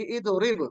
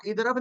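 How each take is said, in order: First: इदरिब with a clear i under रा; इदरिब the correct way; correct vowel. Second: इदरब with an a after र; इदरब the incorrect way; wrong vowel. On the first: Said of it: "रा के नीचे जेर". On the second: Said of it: "इदरब नहीं कहना". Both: Shown as a demonstration.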